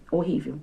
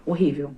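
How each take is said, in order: Both takes have the same delivery.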